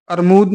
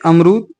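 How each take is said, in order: First: अरमूद with r before m; wrong sound order. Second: अमरूद with m before r; correct sound order. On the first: Teacher rejecting an error, अरमूद said ar-mood. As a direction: swap r and d into अरमूद. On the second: Teacher correcting students, अमरूद said am-rood. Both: Shown as a demonstration. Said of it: "नहीं".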